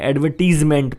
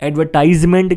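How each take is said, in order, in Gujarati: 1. ત્રીજા ઉચ્ચારણમાં 'ee' સ્વર છે. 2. ત્રીજા ઉચ્ચારણમાં 'eye' સ્વર છે. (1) "ઘણા એડવર્ટીઝમેન્ટ પણ કહેતા હોય છે" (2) "એડવર્ટાઇઝમેન્ટ કહેતા હોય છે"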